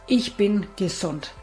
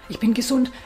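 First: It is said firmly, clearly and with focus. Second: It is said hesitantly, without conviction. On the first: The speaker fully believes the statement. The speaker calls it right. "sondern bestimmt. Ganz klar, fokussiert" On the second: The speaker doubts the statement. The speaker calls it wrong. "Und nicht so"

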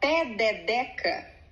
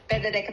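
First: The syllables are said slowly and separately. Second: The syllables are said very fast together.

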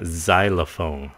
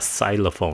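First: The word begins with a z sound. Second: The word does not begin with a z sound. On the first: The speaker calls it right. "nó là xylophone" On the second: The speaker calls it wrong. "chứ không phải là xylophone nha"

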